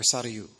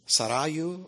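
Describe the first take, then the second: First: Sarayu with SA stressed, quick light middle; stress on first syllable. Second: Sarayu with the middle RA stressed; Sarayu said slowly, leaning on RA, the second syllable. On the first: Speaker demonstrating a name's accent to audience, first-syllable stress on Sarayu. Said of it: "either the first or second syllable". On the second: Speaker demonstrating a name's accent to audience, second-syllable stress on Sarayu. You can accent correctly. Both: Shown as a demonstration.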